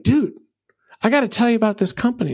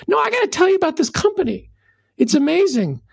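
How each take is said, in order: First: Bursting to share a great find, fast; mock excited rave, higher and quick; an eager fan buttonholing his friend; fired-up customer. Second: Much higher, faster mock insistence; hammed-up pushy enthusiast who won't drop it; refusing to be brushed off, pitch climbing; insistent fired-up customer. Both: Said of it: "is all fired up".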